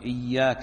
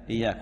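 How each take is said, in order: First: The y sound is long and doubled. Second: The y sound is short and single. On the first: The speaker calls it right. "لابد أن يقول إياك نعبد وإياك نستعين" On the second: The speaker calls it wrong. "أو لا يشدد، ... بعضهم يقول إياك نعبد إياك إياك، وهذا غلط تبطل به الصلاة"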